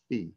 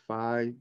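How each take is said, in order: First: It is pronounced the way it is in Greek. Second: It is pronounced the way some people say it. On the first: "The proper pronunciation in Greek is phi" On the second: "some pronounce it phi"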